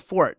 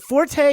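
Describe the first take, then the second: First: It is said with one syllable. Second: It is said with two syllables. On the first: This is the original pronunciation. "the proper pronunciation of F O R T E is Fort" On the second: This is the newer pronunciation. "it's now pronounced Forte"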